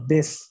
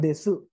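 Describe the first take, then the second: First: The word ends without a final vowel. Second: The word ends with an audible u vowel. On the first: "U-nya biasanya enggak" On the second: "harusnya kan desu itu tulisannya"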